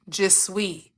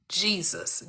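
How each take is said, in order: First: "Je suis" said the French way, zhuh swee; "Je suis" in French, quiet and deliberate. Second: "Jesus" said in English, JEE-zus, hushed; "Jesus" as GEE-zus, quiet and falling. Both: Shown as a demonstration. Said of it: "one letter separating Jesus and je suis".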